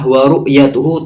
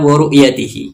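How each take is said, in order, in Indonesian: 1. Kata ini berakhir dengan vokal u-hu. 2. Kata ini berakhir dengan vokal i-hi. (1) "yang benar bacaannya adalah wa ru'yatuhu ta'ala" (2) "Dia membaca wa ru'yatihi ... Itu secara susunan nahwu itu salah"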